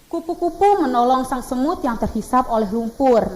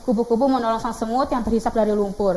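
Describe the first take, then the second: First: Every word is pronounced clearly and distinctly. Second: The words are slurred and hard to make out. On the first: The speaker calls it right. "kita tuh membacanya harus jelas" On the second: The speaker calls it wrong. "Jangan gitu"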